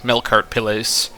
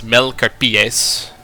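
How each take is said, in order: First: The name is said with an English-style pronunciation. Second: The name is said with a Latin-style pronunciation. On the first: "we're just going to pronounce it in the English manner" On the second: "Like in Latin, this might be pronounced as Melcarpies"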